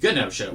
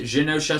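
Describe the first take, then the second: First: The word begins with a hard G sound. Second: The word begins with a soft G sound. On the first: "I always pronounced it Genosha with a hard G" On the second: "a lot of other people pronounce it Genosha"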